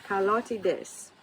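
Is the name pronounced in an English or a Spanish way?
Spanish. The name is pronounced with Spanish-style sounds. "she's Spanish. So I kind of want to want to say Carlotides"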